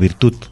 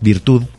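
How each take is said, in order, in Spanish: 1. La palabra termina en un sonido T. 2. La palabra termina en un sonido D suave. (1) "Tampoco es la virtud" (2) "La palabra es virtud"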